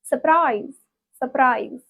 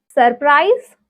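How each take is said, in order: First: "surprise" as suh-PRIZE; American pronunciation. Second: Said in the usual way. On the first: Shown as a demonstration. Teacher corrects one of twenty words, American pronunciation. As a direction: drop the first r in "surprise". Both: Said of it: "twenty words in American accent".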